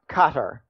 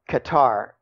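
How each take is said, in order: First: The name is said the local way. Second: The name is said the anglicized way. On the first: This is how the country's people say it. "they pronounce their country" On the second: This is the speaker's habitual way of saying it. "I pronounce it Qatar"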